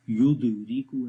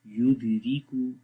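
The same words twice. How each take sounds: First: "युदरिकू" with a heavy bounce after the d; overdone qalqala. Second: "युदरिकू" in a normal voice, d only lightly bounced; weak qalqala. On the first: Teacher warns learners how not to read, "युदरिकू" with overdone bounce on d. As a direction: break "युदरिकू" with too strong an echo on d. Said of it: "ऐसे नहीं पढ़ेंगे". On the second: Teacher shows learners the correct reading, "युदरिकू" with weak qalqala. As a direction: keep the d of "युदरिकू" light and even. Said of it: "जो normal आवाज़ के साथ पढ़ा जाएगा". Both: Shown as a demonstration.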